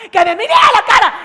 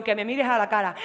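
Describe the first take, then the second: First: Screamed at full force, much higher; furious shout. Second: Said in the usual way. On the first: Acted. Girlfriend screaming at her boyfriend in the park, furious shout. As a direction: yell it at his face. Acted quarrel, repeated as shout.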